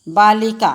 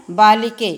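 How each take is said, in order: First: बालिका with a long, stressed final aa; ending aa. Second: बालिके with a long, stressed final e; ending e. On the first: Teacher shows the class the long aa ending. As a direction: stretch the aa at the end of बालिका. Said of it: "आ की मात्रा लगी है". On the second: Teacher shows the class the e ending. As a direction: lean on the e at the end of बालिके. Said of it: "ए की मात्रा लगी है". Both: Shown as a demonstration.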